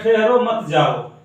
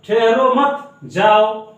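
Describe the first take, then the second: First: There is a pause after ठहरो. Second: There is a pause after मत.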